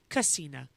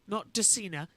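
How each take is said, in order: First: The word starts with a k sound. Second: The word starts with a d sound. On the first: The speaker calls it right. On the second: The speaker calls it wrong.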